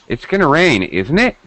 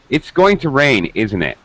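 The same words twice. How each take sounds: First: The pitch rises at the end on the tag. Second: The pitch falls at the end on the tag. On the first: It is a real question. "If I rise, that means it's a real question" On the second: The speaker is sure it will rain. "my pitch falls at the end on the tag"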